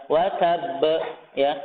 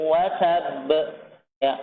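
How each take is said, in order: Both takes have the same delivery.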